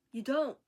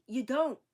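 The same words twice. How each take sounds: First: Louder firm denial again; you don't, said louder and firm; defiant. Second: Louder firm denial; you don't, said louder and firm; defiant. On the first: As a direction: hammer it home. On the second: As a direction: shut them down. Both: Real, not acted. Defiant retort, repeated.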